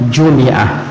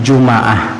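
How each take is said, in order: First: An i vowel is heard after the m. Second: An a vowel is heard after the m. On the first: "boleh dikasrahkan bunyinya" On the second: "boleh dipathahkan bunyinya"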